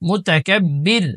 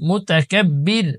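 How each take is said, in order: The two takes are said the same way.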